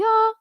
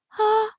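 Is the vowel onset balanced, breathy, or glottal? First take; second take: balanced; breathy. First: The vowel starts cleanly, neither hard nor airy. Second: The vowel starts with an airy puff of breath. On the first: The speaker calls it right. "balanced onset uh, is coming in is on those repeated ahs" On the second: The speaker calls it wrong. "We also don't want breathy"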